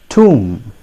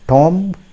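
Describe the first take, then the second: First: It has a long oo vowel, like room. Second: It has a short o vowel, like Tom. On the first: The speaker calls it right. "It is pronounced as tomb" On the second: The speaker calls it wrong. "If you pronounce it Tom, ... That's not going to serve the purpose"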